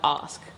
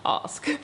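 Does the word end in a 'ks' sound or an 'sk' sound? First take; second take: sk; sk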